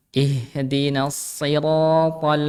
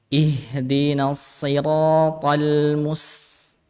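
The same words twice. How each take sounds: First: Siratal drawn out very slowly; slow recitation repeated. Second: Siratal drawn out very slowly with heavy sounds; slow heavy recitation. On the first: Teacher repeats the heavy to in siratal for students. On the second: Teacher recites the heavy to in siratal for class. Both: Shown as a demonstration. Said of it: "to-nya tebal".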